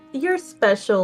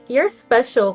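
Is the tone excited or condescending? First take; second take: condescending; excited. First: It sounds condescending, like a patronizing teacher. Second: It sounds excited and genuinely admiring.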